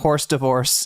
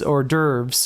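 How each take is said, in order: First: The S at the end of 'hors' is pronounced. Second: The S at the end of 'hors' is silent. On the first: The speaker calls it wrong. "it's not horse divorce" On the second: The speaker calls it right. "you don't pronounce the S in that"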